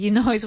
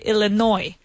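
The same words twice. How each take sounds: First: The word ends with an audible S sound. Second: The word ends without any S sound. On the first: The speaker calls it wrong. "we don't say Illinois" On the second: The speaker calls it right. "We say Illinois. No S sound"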